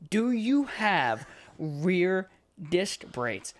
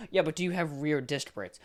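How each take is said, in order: First: Slow, louder and higher, every word of "Do you have rear" stretched out; exasperated repeat. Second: Said in the usual way. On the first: Retold or imitated. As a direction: spell out "Do you have rear disc brakes" slowly, as if to a child. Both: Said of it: "I'm asking you for the fourth time".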